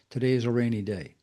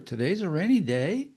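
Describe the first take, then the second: First: The pitch stays level at the end. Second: The pitch rises at the end. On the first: It is a plain statement of fact. "Straight inflection is a sort of a statement of fact" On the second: The speaker is uncertain and insecure. "Up inflection means you're uncertain, you're insecure"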